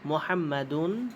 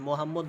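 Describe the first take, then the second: First: The name ends with an added '-un' syllable. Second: The name ends on a bare final consonant. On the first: The speaker calls it right. "বলতে হবে মোহাম্মাদুন" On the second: The speaker calls it wrong. "মোহাম্মদ বলা যাবে না"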